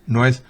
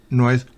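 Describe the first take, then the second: Both takes have the same delivery.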